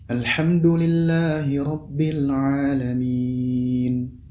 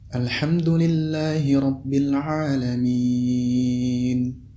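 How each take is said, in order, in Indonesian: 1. Vokal panjang terakhir ditahan cukup panjang. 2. Vokal panjang terakhir ditahan sangat panjang. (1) "Apabila dibaca empat harakat" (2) "Jika dibaca enam harakat"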